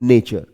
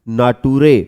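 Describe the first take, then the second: First: It is said in the usual English way. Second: Each letter is sounded out as written. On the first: The speaker calls it right. "सच में हम इसको जब पढ़ते हैं" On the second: The speaker calls it wrong. "अगर बारह खड़ी के हिसाब से इसको पढ़ें"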